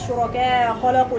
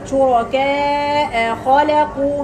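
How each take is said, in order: First: The final glottal stop is softened into the next word. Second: The final glottal stop is fully and clearly pronounced. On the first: The speaker calls it wrong. "ما سهلهاش" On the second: The speaker calls it right. "حققيه وبعدين انتقلي على القاف"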